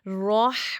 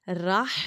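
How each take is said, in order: First: The R sound is said heavy and full. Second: The R sound is said thin and light. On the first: The speaker calls it right. "वहाँ पे रॉह पढ़ना होता है" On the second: The speaker calls it wrong. "राह नहीं पढ़ना होता"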